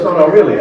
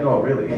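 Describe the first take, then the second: First: Caller's mock disbelief, higher and louder; a pushed, disbelieving "No, no, really?"; incredulous caller. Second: Said in the usual way. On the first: Caller can't believe the owner's gift certificate policy, incredulous. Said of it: "So he goes". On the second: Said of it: "I'm like".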